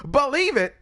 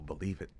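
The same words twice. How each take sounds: First: Loud, high anime shout; Naruto. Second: Said in the usual way. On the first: Retold or imitated. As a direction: yell it like Naruto. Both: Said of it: "what did Naruto say?".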